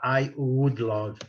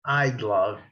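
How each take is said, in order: First: The word would is said in full. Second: Would is reduced to a faint d sound. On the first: The speaker calls it wrong. "noventa por cento dos nativos, eles não vão falar I would love" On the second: The speaker calls it right. "Eles vão falar é I'd love"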